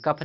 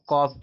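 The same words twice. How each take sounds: First: कफ with a short "uh", like "cuff", pitched up; wrong reading. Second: कॉफ with a long open "aw" vowel; correct reading. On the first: Teacher correcting students' misreading, कफ with short uh. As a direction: say कफ as the mistaken short-vowel reading. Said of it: "कफ नहीं पढ़ते". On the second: Teacher giving students the reading, कॉफ with long aw. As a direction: model कॉफ with open aw, as in "cough". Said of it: "इसको कॉफ पढ़ते हैं". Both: Shown as a demonstration.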